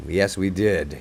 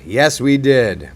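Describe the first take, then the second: First: Said in the usual way. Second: Drawn-out "Yes, we did", YES leaned on, slow and a bit louder; slow emphatic yes. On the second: Real, not acted. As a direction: stretch "Yes, we did" out, hitting YES. Repeating the same reply twice.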